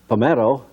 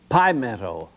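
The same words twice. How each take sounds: First: It uses the common, everyday pronunciation. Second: It uses the local town pronunciation. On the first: The speaker calls it wrong. "I pronounced it just the same way as you would" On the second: The speaker calls it right. "It was Pimento"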